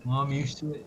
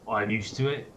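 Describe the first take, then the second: First: It is said in a put-on London accent. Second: It is said in the speaker's ordinary accent.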